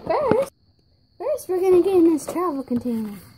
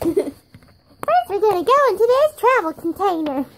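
First: It is said in a put-on voice. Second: It is said in a normal voice.

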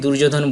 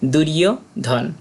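First: The middle consonant is a 'j' sound. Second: The middle consonant is a 'y' sound. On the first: The speaker calls it wrong. "আমরা অনেকে দুর্যোধন বলি না" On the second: The speaker calls it right. "সঠিক উচ্চারণ হবে দুরীয় ধন"

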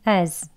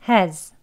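First: Said without h, with a weak schwa. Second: Said with h and a weak schwa vowel. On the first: "앞에 H 소리가 없고요. 슈아 어 소리 어 하고 z로 그냥 끝나는" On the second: "약하게 발음하는 경우"

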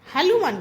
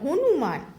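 First: The middle consonant is an l sound. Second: The middle consonant is an n sound. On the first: The speaker calls it wrong. "হালুমান কেন বলে" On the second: The speaker calls it right. "বলে হনুমান"

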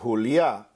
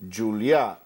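First: The name is pronounced the Spanish way. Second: The name is pronounced the Catalan way. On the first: "Julia would be in Spanish" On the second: "Julia is in Catalan"

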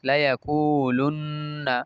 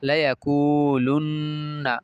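The two takes are said the same way.

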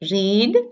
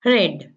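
First: The vowel is long, rhyming with 'need'. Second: The vowel is short, rhyming with 'bed'. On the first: The action happens in the present. "present tense we pronounce as read" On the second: The form is the past participle. "Past participle as read"

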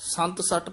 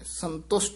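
First: It is split into two parts, 'sant satt'. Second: It is said as one word, 'santusht'. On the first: The speaker calls it wrong. "ਸੰਤ ਸੱਟ ਪਾਠ ਨਹੀਂ ਕਰਨਾ, ਕਈ ਅਣਜਾਣ ਪਾਠੀ ਸੰਤ ਸੱਟ ਹੀ ਕਹਿ ਜਾਂਦੇ ਨੇ" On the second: The speaker calls it right. "ਸੰਤੁਸ਼ਟ ਬੋਲਣਾ ਹੈ"

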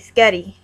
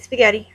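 First: The word is shortened to two syllables. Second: The word is said in full, three syllables. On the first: This is the speaker's own way. "I say sketty" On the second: This is the standard way others say it. "I don't say spaghetti"

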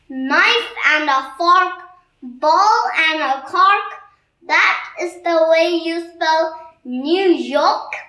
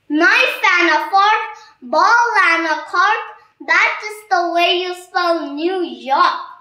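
First: It is said slowly. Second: It is said fast.

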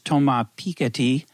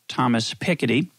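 First: The name is said in a non-American way. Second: The name is said in an American way.

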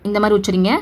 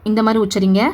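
No difference in how they are said.

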